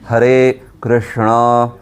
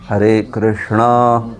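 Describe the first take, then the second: No difference in how they are said.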